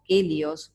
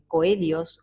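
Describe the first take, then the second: First: The word begins with a 'ke' sound. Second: The word begins with a 'ko' sound. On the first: The speaker calls it right. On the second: The speaker calls it wrong.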